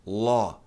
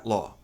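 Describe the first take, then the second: First: LÓ with a long open vowel, as English law; LÓ held long and lower; correct long O. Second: LÓ with a short open O; LÓ, brief vowel; wrong short vowel. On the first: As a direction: draw out the O of "ló". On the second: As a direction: say "ló" short, Portuguese-style. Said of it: "Então não é ló". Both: Shown as a demonstration.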